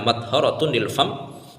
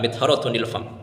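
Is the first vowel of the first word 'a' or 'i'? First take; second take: a; i. First: The first vowel is an open 'a' sound. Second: The first vowel is a close 'i' sound. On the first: The speaker calls it right. "mimnya dibaca fathah itu lebih fasih" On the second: The speaker calls it wrong.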